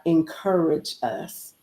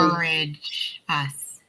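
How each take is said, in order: First: "encourage us" drawn out slowly, the word "encourage" leaned on; slow emphatic. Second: "encourage us" repeated even slower, copying the drawn-out "encourage"; echoed slow emphasis. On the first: Real, not acted. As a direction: stretch out "encourage us" and land it with weight. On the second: Retold or imitated. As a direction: echo "encourage us" slowly, savoring the word "encourage". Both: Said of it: "I love how you did that".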